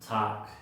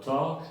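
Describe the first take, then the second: First: The vowel sounds like 'a'. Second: The vowel sounds like 'o'. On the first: "En el otro acento se pronuncia A" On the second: "se pronuncia O"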